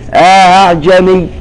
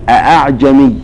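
First: A long vowel precedes a softened second glottal stop. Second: Two full glottal stops open the word. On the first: A two-count alif is inserted and the second hamza eased. "يقرأ بالتسهيل وله إدخال، يثبت ألفا بمقدار حركتين فقط" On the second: It is read as a question with both hamzas kept. "بالتحقيق، فيقرؤون"

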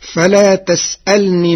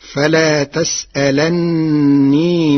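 First: The n is single and the l has i. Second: The n is doubled and the l has a.

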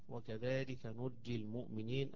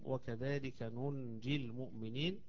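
First: The verb is said with a doubled j. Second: The verb is said with an n before j. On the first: The verb is past passive: the believers were saved. "القراءة الثانية" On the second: The verb is present tense: we save the believers. "قراءة"

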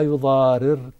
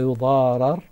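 First: The vowel before the final r is i. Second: The vowel before the final r is a. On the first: The scribe and witness must not cause harm. "إذا أراد الفاعل يقول" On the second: The scribe and witness must not be harmed. "لو أراد المفعول"

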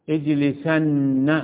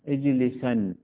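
First: The final n sound is doubled and held. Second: The final n sound is short and single. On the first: The command is stressed very strongly. "هذه نون توكيد ثقيلة ومشددة" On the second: The command is stressed only lightly. "هذه نون توكيد خفيفة وتسمى الساكنة"

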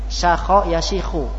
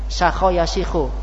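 No difference in how they are said.

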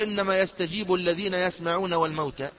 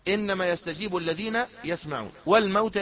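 First: It runs on without a pause after يسمعون. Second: It stops with a pause after يسمعون. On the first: The dead are among those who hear and respond. The speaker calls it wrong. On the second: Only the living who hear respond; the dead are raised later. The speaker calls it right.

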